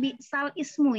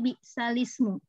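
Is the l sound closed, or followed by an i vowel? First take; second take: closed; i vowel. First: The l has no vowel after it. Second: The l is followed by an i vowel. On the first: "tadinya eh, lamnya itu sukun" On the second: "sekarang lamnya jadi berharokat kasroh"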